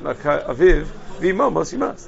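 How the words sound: The pause comes after the word aviv. Striking the father causes the mother to die. The speaker calls it wrong. "If you strike your father, your mother should die"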